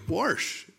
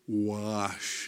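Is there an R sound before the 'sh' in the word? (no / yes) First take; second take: yes; no. First: An R sound is added before the 'sh'. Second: No R sound is heard before the 'sh'. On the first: This is how the speaker said it growing up. "I grew up saying warsh. There's no R in the word. But that's the way we said it" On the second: This is the form the speaker adopted to fit in. "I was going to say wash, and I had to practice saying it that way"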